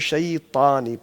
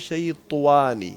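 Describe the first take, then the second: First: The lips stay straight, with no w-like sound. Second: The lips are rounded, adding a w-like sound. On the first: The speaker calls it right. "तो शैतानी पढ़ना है।" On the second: The speaker calls it wrong. "होंठों को गोल करने की कोशिश करेंगे तो हो जाता है शैतानी, वाव सी आ जाती है, वो गलत है"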